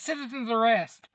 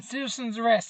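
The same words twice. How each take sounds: First: Hammed-up second shout; mock shout. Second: Higher, excited call-out; hammed-up citizen's arrest cry; mock shout. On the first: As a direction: call it again, a bit higher. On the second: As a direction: yell it like a self-made hero. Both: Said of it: "he jumps out going".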